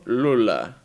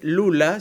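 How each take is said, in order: First: The L sounds much deeper and darker. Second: The L sounds light, as in Spanish. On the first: The speaker calls it right. "es como una L mucho más grave" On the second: The speaker calls it wrong. "No es Lula"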